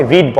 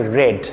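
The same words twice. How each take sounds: First: রিড with a long "ee", like reed; the common wrong "reed" for রিড; mispronounced past "read". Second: রেড with a short "e", like red; correct past "read". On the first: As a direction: say রিড to rhyme with need. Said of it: "অনেকে রিড বলে". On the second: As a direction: say রেড to rhyme with bed. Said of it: "রিডের past tense হবে রেড". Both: Shown as a demonstration.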